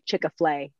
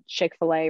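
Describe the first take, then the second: First: The name is said as Chick-a-flay. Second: The name is said as Chick-fil-A. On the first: The speaker calls it wrong. "They say Chick-a-flay" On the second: The speaker calls it right. "Kids say Chick-fil-A wrong"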